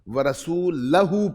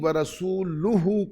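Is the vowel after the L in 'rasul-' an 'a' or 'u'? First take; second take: a; u. First: The vowel after the L is 'a'. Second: The vowel after the L is 'u'. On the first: God is free of the polytheists and of His messenger. The speaker calls it wrong. "पढ़े तो कुफ्र है" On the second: His messenger is also free of the polytheists. The speaker calls it right. "जिसके ऊपर पेश है"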